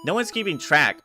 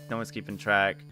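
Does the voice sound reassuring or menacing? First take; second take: menacing; reassuring. First: It is said in a mock-menacing, exaggerated voice. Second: It is said in a relaxed, reassuring tone. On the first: It is a veiled threat. "my brain instantly went to" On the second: It really does not matter. "You probably you probably were meaning it like that"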